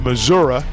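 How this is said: It is said the way Missourians say it.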